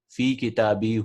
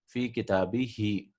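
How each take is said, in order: First: The word ends with the vowel 'u'. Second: The word ends with the vowel 'i'. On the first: The speaker calls it wrong. "they didn't like saying fi kitabihu" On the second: The speaker calls it right. "So what they did was fi kitabihi"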